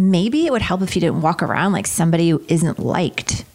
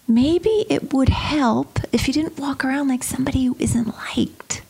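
First: It is said in a cutting, unkind tone. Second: It is said in a gentle, caring tone. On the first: The remark is meant as an insult. "Here's one way" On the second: The remark is meant as helpful advice. "young Jenny was wise beyond her years and said"

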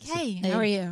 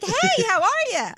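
First: It is said calmly with low, mellow energy. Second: It is said loudly with lively, high energy.

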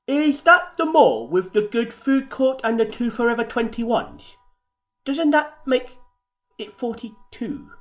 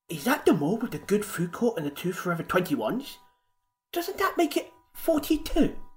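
First: It is said at a normal, outward pace. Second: It is said quicker, as if to himself.

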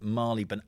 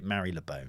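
First: It is pronounced the way Londoners say it. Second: It is pronounced the way non-Londoners say it. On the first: The speaker calls it right. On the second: The speaker calls it wrong. "Only people from outside London call it"

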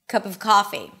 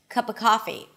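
First: The word 'of' keeps its V sound. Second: The word 'of' is a schwa without V. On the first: "it's not a mistake to say the of" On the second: "not only I reduced the a sound to a schwa, but I also dropped the V completely"

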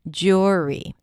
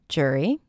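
First: The first vowel sounds like 'or' in poor. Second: The first vowel sounds like 'er' in stir. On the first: "It's somewhere in between" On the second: "reduce the sound and just pronounce it as jury with an er as in stir"

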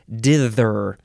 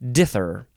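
First: The th sound is said hard. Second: The th sound is said soft. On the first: The speaker calls it right. "you have to give that sort of hard T-H sound" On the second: The speaker calls it wrong. "instead of dither. That's not it"

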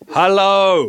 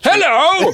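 First: It is said in his own normal voice. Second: It is shouted in a loud character voice.

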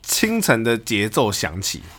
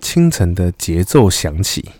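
First: It is read in a plain speaking voice. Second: It is said in a deep, husky, intimate voice.

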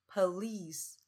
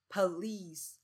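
The two takes are said the same way.

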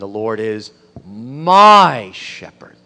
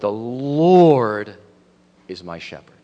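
First: The stress is on "my". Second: The stress is on "Lord".

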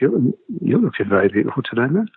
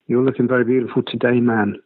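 First: The final word man trails away quietly. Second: The final word man is said clearly.

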